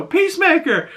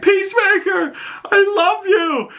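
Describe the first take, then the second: First: High-pitched imitation of a woman calling; lady fan. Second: Put-on little kid. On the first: Lady calling to Peacemaker from a car window, high fan voice. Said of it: "lady rolls down the window". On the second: Little kid yelling to a hero from a car, high mock shriek. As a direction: mimic an adoring child calling out. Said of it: "this little kid rolls down his window".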